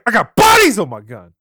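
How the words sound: It is said forcefully, with conviction. The speaker calls it right. "Say it with some conviction"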